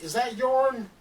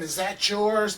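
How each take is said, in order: First: "yourn" said with an added n, Southern style, a bit higher. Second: Said in the usual way. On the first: Retold or imitated. Retelling what Southern friends say, mock "yourn" with the n. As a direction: imitate a Southern friend saying "yourn" for yours. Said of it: "they'll say something like". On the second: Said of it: "instead of saying".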